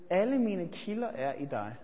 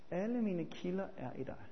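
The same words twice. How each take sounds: First: Said in the usual way. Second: Much softer, let it sink in; hushed repeat. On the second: Shown as a demonstration. Preacher repeating the psalm line softly to the congregation. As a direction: say it again, near a murmur. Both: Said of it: "Salme syvogfirs siger David".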